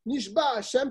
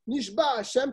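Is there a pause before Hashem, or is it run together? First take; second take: run together; run together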